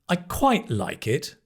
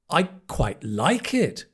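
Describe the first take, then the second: First: The stress is on the word quite. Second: The stress is on the word like. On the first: It is only okay. "if you emphasize quite, then it's so-so" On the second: It is really good. "if you change the stress to the next word"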